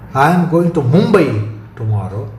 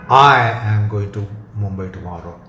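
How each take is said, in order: First: The word "Mumbai" carries the stress. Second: The word "I" carries the stress. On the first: No other destination is meant. "Stress on Mumbai rules out any other destination" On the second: Only this person is going, nobody else. "emphasis on I excludes some proxy"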